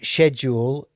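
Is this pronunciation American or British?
British. It is said with a British pronunciation. "Schedule is British"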